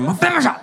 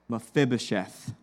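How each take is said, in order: First: The name is said in a put-on Russian accent. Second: The name is said in a plain, normal accent. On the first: The speaker calls it wrong. "you're making it sound like your Russian grandma who stubbed her toe" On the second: The speaker calls it right. "Said it right"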